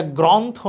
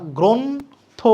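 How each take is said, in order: First: গ্রন্থ said grontho with a final o; গ্রন্থ ending in an extra o vowel; wrong pronunciation. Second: গ্রন্থ said gronth with no final vowel; গ্রন্থ closed, ending on th; correct pronunciation. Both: Shown as a demonstration. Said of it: "এটা গ্রন্থ না".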